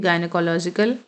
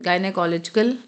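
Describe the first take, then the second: The two takes are said the same way.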